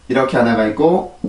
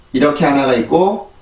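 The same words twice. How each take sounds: The two takes are said the same way.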